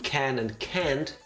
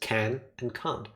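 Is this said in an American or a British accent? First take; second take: American; British. First: The vowels sound American, nearly alike. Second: The vowels sound British, clearly different. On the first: The speaker calls it wrong. "to my ears, hard to tell them apart" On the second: The speaker calls it right. "Hence, can and can't. It's a thing I do"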